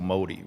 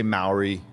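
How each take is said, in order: First: "Māori" with the R tapped like a D; Māori pronunciation. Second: "Maori" with an English R; plain English R in "Maori"; English pronunciation. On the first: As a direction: say "Māori" as if it were "Mo-dee". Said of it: "it sounds like a D". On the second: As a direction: say "Maori" the Anglicised way, R kept clear. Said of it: "we say Maori". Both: Shown as a demonstration.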